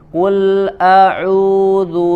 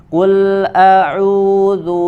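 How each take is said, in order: Both takes have the same delivery.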